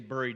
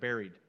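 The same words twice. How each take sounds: First: The first syllable sounds like 'burr'. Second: The first syllable sounds like 'berry'. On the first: The speaker calls it wrong. "I always say buried" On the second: The speaker calls it right. "When I hear buried, I think of pie"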